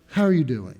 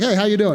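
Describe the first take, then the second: First: It is said slowly, with sincere concern. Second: It is said as a quick, casual greeting.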